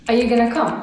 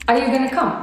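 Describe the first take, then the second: The two takes are said the same way.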